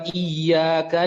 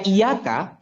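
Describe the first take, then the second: First: The y sound is held long and doubled. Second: The y sound is short and single. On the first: Only you. The speaker calls it right. "Iyyaka ini kalau gak ditekan" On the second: Only the sun. The speaker calls it wrong. "kalau gak ditekan, dibaca iyaka"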